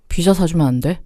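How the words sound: It is said in a serious, stern tone. The speaker sounds like they want to pick a fight. The speaker calls it wrong. "두 번째 목소리는 어, 피자고 나발이고 지금 싸우자는 거 아닌가요?"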